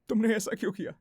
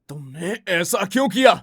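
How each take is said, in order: First: The line is said in a sad tone. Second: The line is said in an angry tone. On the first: "sad" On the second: "angry"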